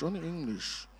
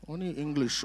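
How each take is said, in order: First: "only English" repeated softer in an altered, teasing voice; echoed aside. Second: Said in the usual way. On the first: Acted. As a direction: echo the line as a playful aside. Repeats the phrase about his wife.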